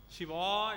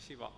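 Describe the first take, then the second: First: "Shiva" with the vowel stretched out, rising; long vowel, three beats. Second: "Shiva" said quickly and clipped short; short, two beats. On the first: Teacher showing students a three-beat Shiva, drawn out. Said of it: "it will be three". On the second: Teacher contrasting a short two-beat Shiva. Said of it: "Short, okay? Two beats". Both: Shown as a demonstration.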